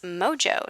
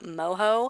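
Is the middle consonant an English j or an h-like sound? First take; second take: English j; h-like sound. First: The middle consonant is an English j sound. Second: The middle consonant is a Spanish h-like sound. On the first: The speaker calls it right. "sure enough, it is" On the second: The speaker calls it wrong. "that's the Spanish in me wanting to call it"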